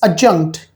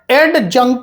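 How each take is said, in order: First: The d sound is left out of the word. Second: The d sound is pronounced in the word. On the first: The speaker calls it right. "D is silent in this word" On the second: The speaker calls it wrong. "it is not adjunct"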